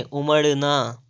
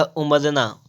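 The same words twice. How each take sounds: First: "उमड़ना" drawn out slowly with retroflex ṛ; slow down on the curled ṛ of "उमड़ना"; corrected flap. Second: "उमरना" with a plain r; wrong r sound. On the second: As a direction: say "उमरना" with tapped r, not flap ṛ. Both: Shown as a demonstration. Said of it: "तो नहीं उमरना नहीं".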